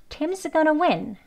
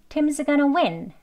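The two takes are said the same way.

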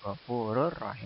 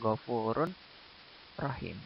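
First: The n merges fully into the following r. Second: A clear n is heard before the r. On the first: The speaker calls it right. "Yang benar ghafurur rahim" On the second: The speaker calls it wrong. "bukan ghafurun rahim"

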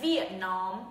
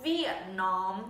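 The two takes are said the same way.

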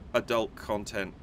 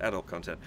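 First: The word is said with American pronunciation. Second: The word is said with non-American pronunciation. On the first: "the first time I've ever said that in the American, North American pronunciation" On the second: "I would have said adult content"

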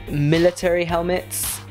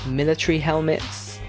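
No difference in how they are said.

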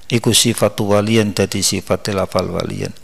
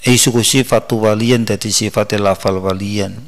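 Both takes have the same delivery.

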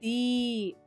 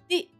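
First: The vowel is held long. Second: The vowel is cut short. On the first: The speaker calls it wrong. "I am not saying it D" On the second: The speaker calls it right. "I'm saying it di, which is a short sound"

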